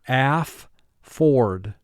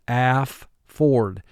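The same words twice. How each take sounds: No difference in how they are said.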